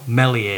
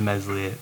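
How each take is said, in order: First: The name is said without an s sound. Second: The name is said with an s sound. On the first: The speaker calls it right. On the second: The speaker calls it wrong.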